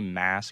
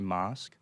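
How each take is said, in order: First: It has a short, flat American-style vowel. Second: It has a long, broad British-style vowel. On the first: "I don't say mask" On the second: "I say mosque"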